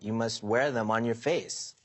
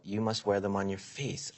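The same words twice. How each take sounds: First: The word face is strongly stressed. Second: The word face is not strongly stressed.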